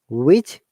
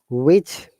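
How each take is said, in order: Both takes have the same delivery.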